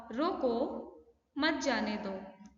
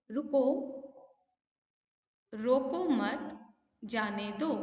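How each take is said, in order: First: "रोको", pause, slow "मत जाने दो"; pause after रोको. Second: "रोको मत" said slowly, then a clear break before "जाने दो"; slow "रोको मत", pause, then "जाने दो"; pause after मत. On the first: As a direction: clear break right after "रोको", then a slow "मत जाने दो". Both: Shown as a demonstration. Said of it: "बोलते वक्त आपने बीच में कुछ गैप दिया".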